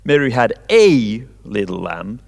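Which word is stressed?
a. The stress is on a.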